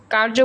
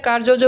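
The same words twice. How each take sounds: First: কার্য said as kar-jo, J sounded once; no repeated syllable in কার্য; single J. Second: কার্যজ said as kar-jo-jo; কার্যজ with an extra jo tacked on; wrongly doubled J. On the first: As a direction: say কার্য with one jo. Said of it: "কার্য বলে কার্যজ বলি না". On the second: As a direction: repeat the final jo in কার্যজ. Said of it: "কার্যজ বলি না". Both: Shown as a demonstration.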